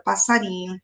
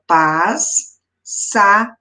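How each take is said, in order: First: Said in the usual way. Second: "passarinho" split into pas-sa-ri-nho with long pauses; syllable by syllable. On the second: Shown as a demonstration. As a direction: break "passarinho" into four separate syllables. ("passarinho" sílaba por sílaba, com pausas) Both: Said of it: "Quando eu separo a palavra".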